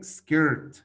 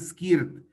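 First: The word is said with English pronunciation. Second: The word is read the way it is spelled. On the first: The speaker calls it right. "Se dice skirt" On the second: The speaker calls it wrong. "pero no se dice skirt"

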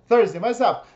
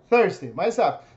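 The two takes are said the same way.

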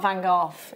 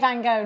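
First: The name is said the local way. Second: The name is said the American way. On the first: "not Van Gogh" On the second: "they say Van Gogh"

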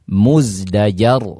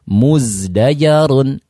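First: The word ends on a bare, unvoweled r. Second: The word ends with a vowel and n sound. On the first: The reading stops at this word. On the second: The reading continues into the next word.

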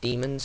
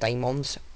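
First: The first syllable sounds like 'dee'. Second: The first syllable sounds like 'day'. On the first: This is what the speaker thinks is the usual pronunciation. "but I think it's pronounced Demons" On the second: This is the speaker's own habitual pronunciation. "That's how I pronounce it"

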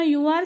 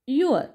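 First: It is said as two separate full words. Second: It is said as one contracted short syllable. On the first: "यू आर साठी तुमचा short form असेल" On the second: "अर हा sound आपल्याला अगदी slight करायचा आहे"

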